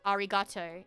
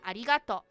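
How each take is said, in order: First: It is said with an English accent. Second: It is said with a Japanese accent. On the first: "Like that's what an English accent" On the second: "when I say Japanese accent"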